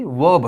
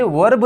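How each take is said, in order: First: वर्ब as "wub", without any R; correct, silent R. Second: वर्ब with the R pronounced, "warb"; wrong, R sounded. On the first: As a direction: leave the R out of वर्ब. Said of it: "इसमें जो आर है वो silent है". (वर्ब में आर silent, सही उच्चारण) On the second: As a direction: hit the R in वर्ब as the mistake. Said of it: "ये वर्ब नहीं है". (वर्ब में आर बोलकर गलत उच्चारण) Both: Shown as a demonstration.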